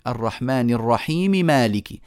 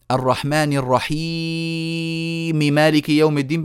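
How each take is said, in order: First: الرحيم held for two counts only; correct short madd. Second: الرحيم stretched with a long drawn madd; wrong long madd. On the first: Teacher demonstrating the correct two-count madd on الرحيم. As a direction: keep الرحيم to just two beats. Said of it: "إنما بقول إيه؟". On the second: Teacher demonstrating the wrong long madd on الرحيم. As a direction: drag out الرحيم far past two counts. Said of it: "بعمل كده؟ لا، ما بعملش كده". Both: Shown as a demonstration.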